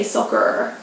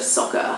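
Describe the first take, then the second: First: "soccer" with an American r at the end; American pronunciation. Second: Said in the usual way. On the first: Shown as a demonstration. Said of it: "I would have to say soccer". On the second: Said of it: "instead of soccer".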